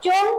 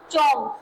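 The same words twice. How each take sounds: First: चुंग said with a short u, chung, not chong; correct pronunciation. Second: चोंग said with an o vowel, chong, as the mistake; demonstrating the wrong चोंग so students avoid it; wrong pronunciation. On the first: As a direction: give the right version: चुंग with a u vowel. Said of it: "क्या पढ़ेंगे?". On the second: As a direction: show the wrong way: चोंग with a rounded o. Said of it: "इसे आप चोंग नहीं पढ़ेंगे।". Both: Shown as a demonstration.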